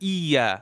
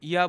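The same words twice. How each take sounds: First: The y sound is doubled and stressed. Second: The y sound is short and single. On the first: The speaker calls it right. "ইয়া ওইখানে কিন্তু একটা আপনার জোর দিতে হবে" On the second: The speaker calls it wrong. "ইয়া বললে কিন্তু হবে না"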